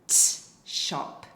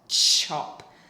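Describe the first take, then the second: First: The t and shop are separated by a pause. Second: The t and shop blend into one word. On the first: "start with T and then do the S H word" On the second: "you've kind of said the word chop"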